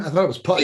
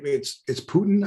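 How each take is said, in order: First: Putin said as PUT-in, short u like putt; pronunciation. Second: Putin said as POO-tin, rising question; puzzled query on Putin with long oo; pronunciation query. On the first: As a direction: explain it sounds like PUT-in. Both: Real, not acted.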